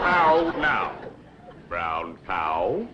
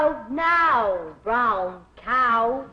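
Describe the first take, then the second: First: How now, brown cow? falling on how, rising on cow; teacher's elocution of How now, brown cow?; diction drill. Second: How now, brown cow? echoed, rising on cow; repeated diction drill. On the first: Shown as a demonstration. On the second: Retold or imitated. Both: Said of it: "practice diction and intonation".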